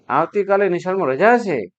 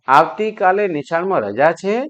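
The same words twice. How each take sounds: First: It is said with surprise. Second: It is said as a question.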